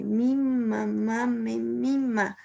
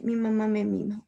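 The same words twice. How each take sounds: First: "Mi mamá me mima" said slowly, leaning on every m; slow, stressed M sounds. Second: Said in the usual way. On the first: Shown as a demonstration. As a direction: stretch out "Mi mamá me mima", pressing each m. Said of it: "Va repitiendo la M". ("Mi mamá me mima" lento, marcando cada eme) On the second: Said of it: "el ejemplo más clásico es el que tengo aquí".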